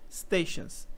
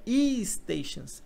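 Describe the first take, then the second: First: The word begins directly with the s sound. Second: An extra vowel comes before the initial s. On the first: The speaker calls it right. "é só stations" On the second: The speaker calls it wrong. "não é e-stations"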